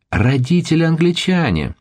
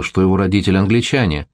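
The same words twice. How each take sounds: First: Shrill high squeal of disbelief; high shriek. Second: Said in the usual way. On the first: A narrator's reading. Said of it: "взвизгнула девчонка так пронзительно". (пронзительный визг)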